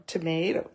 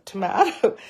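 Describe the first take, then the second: First: "tomato" with a long AY, tuh-MAY-toe; "tomato" the MAY way, rising at the end; usual pronunciation. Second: "tomato" with an open AH, tuh-MAH-toe; higher, louder "tomato" as tuh-MAH-toe; playfully lifted "tomato", the MAH way; alternative pronunciation. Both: Shown as a demonstration. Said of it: "the correct pronunciation is".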